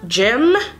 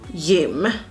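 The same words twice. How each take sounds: First: It is said with an English pronunciation. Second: It is said with a Swedish pronunciation. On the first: "I will start pronouncing them in English" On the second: "then I will say them in Swedish"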